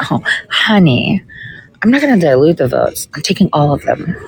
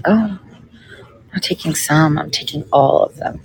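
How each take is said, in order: First: Sassy comeback. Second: Sassy quote that drops softer; sassy replay. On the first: Telling the Ohio GOP guy she takes every vote, sassy. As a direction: talk down sweetly, then land it. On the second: Repeating to viewers what she told the GOP guy, sassy. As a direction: replay the put-down, softer at the end. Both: Retold or imitated. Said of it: "I literally said it like that".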